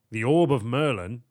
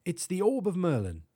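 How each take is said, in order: First: Louder, astonished question; a note of astonishment, rising at the end. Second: High, proud British professor; higher-pitched British professor's statement. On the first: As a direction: echo it back in disbelief. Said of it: "a note of astonishment in his voice". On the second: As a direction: announce a treasure in a British accent. Professor proudly names his orb. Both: A narrator's reading.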